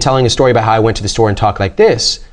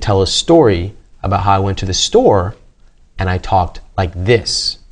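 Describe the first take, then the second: First: It is spoken at a normal, fast pace. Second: It is spoken at half speed, slowly.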